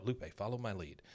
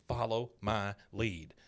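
First: Said in the usual way. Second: Slow, word-by-word repetition; imitating a child carefully repeating a phrase; slow parroting. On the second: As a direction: echo it slowly, one word at a time. Girl parrots Peggy word by word.

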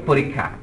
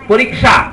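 First: পরীক্ষা said as in speech, with a doubled kh, "po-rikkha"; spoken pronunciation. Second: পরীক্ষা read as written, with a clear kʃ, "po-rik-sha"; spelling pronunciation. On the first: Lecturer showing how পরীক্ষা is really said, po-rikkha. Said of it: "কিন্তু বলি". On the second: Lecturer showing the written form of পরীক্ষা, po-rik-sha. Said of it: "আমরা লিখি". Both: Shown as a demonstration.

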